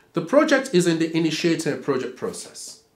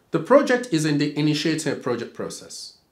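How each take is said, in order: The two takes are said the same way.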